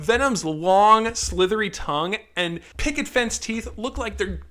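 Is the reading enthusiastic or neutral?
enthusiastic. It is read in an excited, gushing tone. It reads as a compliment.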